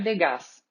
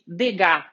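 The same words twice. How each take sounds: First: The final S is pronounced. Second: The final S is silent. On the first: The speaker calls it wrong. "provavelmente eu já falei o nome dele errado" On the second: The speaker calls it right. "não se pronuncia o S do final. Então vamos chamar ele de Degas"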